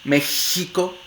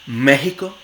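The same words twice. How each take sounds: First: The x is a rasping sound at the soft palate. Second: The x is a breathy glottal h sound. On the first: "se puede realizar como fricativa velar sorda" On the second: "Suele realizarse como fricativa glotal sorda"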